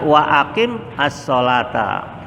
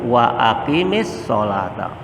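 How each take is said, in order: First: Aqim ends on a consonant, read separately. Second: Aqim is joined with an i vowel. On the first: "kalau kita baca satu-satu" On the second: "kalau kita sambung"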